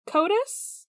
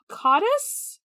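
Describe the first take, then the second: First: Codus as "KOH-tus", rising; second attempt. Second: Codus as "KAH-tus", rising; unsure pronunciation. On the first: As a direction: try Codus with a long o, higher and questioning. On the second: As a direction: try Codus with an open "ah", higher and questioning. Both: Shown as a demonstration.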